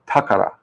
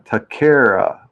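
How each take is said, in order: First: The middle vowel sounds like 'ah'. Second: The middle vowel sounds like 'eh'. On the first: The speaker calls it right. "but it's takara" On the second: The speaker calls it wrong. "Everyone always says uh"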